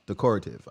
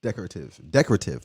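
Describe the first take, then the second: First: Decorative as de-COR-ative, falling; stress on second syllable. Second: Decorative as DEC-ra-tive, falling; stress on first syllable. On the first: Host unsure of the word, decorative stressed de-COR-ative. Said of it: "I don't know". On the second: Host settling on what sounds right, decorative as DEC-ra-tive. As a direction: try decorative with DEC stressed and a short middle. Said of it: "That sounds right". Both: Shown as a demonstration.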